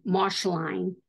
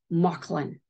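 First: "Mauchline" said as MOSH-line; "Mauchline" with a sh sound and a long i ending; spelling pronunciation. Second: "Mauchline" said as MOCK-lin; "Mauchline" with a k sound and a short, weak ending; local pronunciation. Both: Shown as a demonstration. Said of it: "but it's pronounced".

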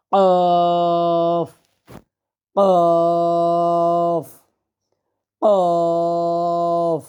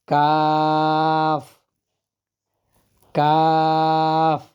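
First: A thick, heavy কফ with a throat hit; heavy Arabic qaf. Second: কাফ light like Bangla ক, drawn out slowly; a thin কাফ, no throat hit; light Arabic kaf. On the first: Teacher contrasting qaf with kaf, heavy throaty. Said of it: "গলাটাকে বাড়ি দিতে হবে". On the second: Teacher contrasting kaf with qaf, light and slow. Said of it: "স্বাভাবিক বাংলা কয়ের মতো উচ্চারণ". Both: Shown as a demonstration.

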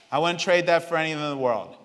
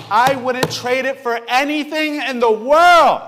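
First: Said in the usual way. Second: Louder, slower, higher heartfelt declaration; emphatic. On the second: Real, not acted. Father telling church about his baby, emphatic. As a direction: declare it with full conviction. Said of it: "repeated plainly".

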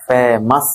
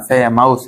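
First: ফেমাস as "fe-mas"; ফেমাস with no "ow" in the last syllable; correct pronunciation demo. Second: ফেমাস as "fe-maus"; ফেমাস with an "ow" in the last syllable; mispronunciation demo. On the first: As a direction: end ফেমাস on a plain "-as". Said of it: "আস হবে". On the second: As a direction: wrongly end ফেমাস on "-aus". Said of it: "আউস হবে না". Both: Shown as a demonstration.

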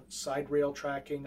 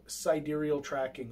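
First: "side rail" for sidereal, SIDE-rail; shortened pronunciation. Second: "sidereal" in four syllables, sy-DEER-ee-ul; full-syllable pronunciation. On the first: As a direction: say "side rail" like two short words, stressed on side. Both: Shown as a demonstration. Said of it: "I've heard it pronounced both ways".

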